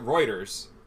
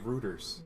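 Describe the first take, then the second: First: The first syllable sounds like 'roy'. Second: The first syllable sounds like 'roo'. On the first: This is how people here say it. "I believe down here we pronounce it Reuters" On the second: This is how many Canadians say it. "I've heard so many Canadians say rooters"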